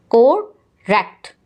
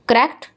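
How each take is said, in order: First: "कोरेक्ट" broken slowly as co, rrect; split into syllables. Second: Said in the usual way. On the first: Shown as a demonstration. Teacher counting syllables for pupils, "कोरेक्ट" split in two. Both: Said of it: "दो syllable हैं".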